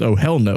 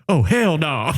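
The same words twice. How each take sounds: First: It is said in an ordinary speaking voice. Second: It is said in a sudden, altered voice. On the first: It is a deliberate, controlled reaction. "Like in her normal voice" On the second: It is an involuntary tic outburst. "Like that, that was the Tourette's"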